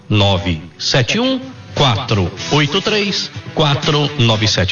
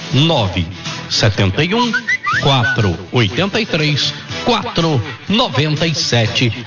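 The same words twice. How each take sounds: First: The number is said at normal speed. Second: The number is said slowly.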